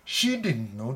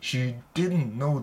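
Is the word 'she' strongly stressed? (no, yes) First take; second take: yes; no. First: The word 'she' is strongly stressed. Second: The word 'she' carries no special stress. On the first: Even she did not know, so how could I? "C を強く言ってますね" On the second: She did not know. "普通あのその人は知らなかったんだ。"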